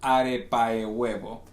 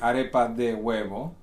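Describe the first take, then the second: First: The word de is dropped and merged. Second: The word de is clearly pronounced. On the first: This is how people in that region say it. "because the way people speak there, ... So no de" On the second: This is the grammatically correct form. "the grammatically correct name would be"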